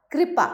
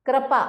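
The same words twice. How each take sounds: First: Said in the usual way. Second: कृपा said as "kra-paa"; कृपा starting with "kra"; misspelt ra sound. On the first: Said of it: "री और र". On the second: Shown as a demonstration. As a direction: swap the "ri" of कृपा for "ra". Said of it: "री और र की अशुद्धियां".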